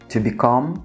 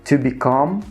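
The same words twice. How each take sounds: Both takes have the same delivery.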